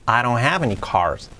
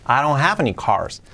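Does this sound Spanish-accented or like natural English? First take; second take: natural English; natural English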